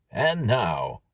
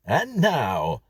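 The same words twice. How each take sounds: First: Louder, showy American record-host intro; hint of a brash American MC; American announcer. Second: High, loud American intro; cheesy American record host; American announcer. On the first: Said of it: "said an American voice on the record". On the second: Acted. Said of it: "said the voice from the record player".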